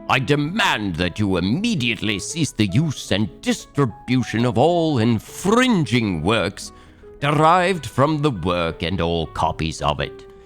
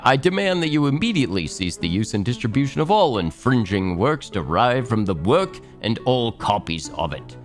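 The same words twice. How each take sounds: First: It is read in an English accent. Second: It is read in the speaker's normal accent.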